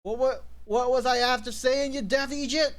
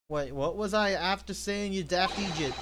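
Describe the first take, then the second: First: High-pitched mock indignation; hammed-up, stammering exasperation; indignant outburst. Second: Said in the usual way. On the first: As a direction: scold in a raised character voice. Acted outburst of indignant game character.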